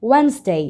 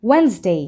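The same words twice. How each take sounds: No difference in how they are said.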